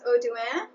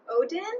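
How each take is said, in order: First: The name is said with a French pronunciation. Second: The name is said with an English-sounding pronunciation. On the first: "which I think would be the French way" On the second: "sounded much more Englishy"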